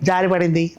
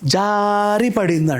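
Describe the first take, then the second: First: The voice stays plain without any sliding. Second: The voice slides as if slipping down. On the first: The speaker calls it wrong. "అన్నద్దు" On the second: The speaker calls it right. "అంటారు ... అది జారినట్టు నీ గొంతులో రావాలి"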